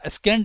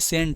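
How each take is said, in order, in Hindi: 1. s के बाद k की आवाज़ बोली जाती है। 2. s के बाद कोई k की आवाज़ नहीं बोली जाती। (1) "स्केंट मत पढ़ना" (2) "ये सेंट है"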